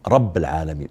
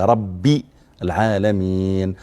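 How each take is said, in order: First: The word rabb ends with no vowel. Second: The word rabb ends with an i vowel. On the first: The speaker calls it wrong. "بعضهم يسكن كلمة رب ولا يجعلها مكسورة" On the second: The speaker calls it right. "هي ربي العالمين"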